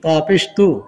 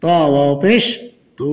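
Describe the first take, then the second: First: Final তু with a short, quick vowel. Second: Final তু with a long held vowel; one-alif stretch. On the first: Teacher showing learners the quick reading, short final তু. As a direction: cut the last তু short. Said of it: "হরকতের উচ্চারণ তাড়াতাড়ি করতে হয়". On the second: Teacher showing learners the stretch, long final তু. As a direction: draw out the last তু. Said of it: "এক আলিফ টান হবে". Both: Shown as a demonstration.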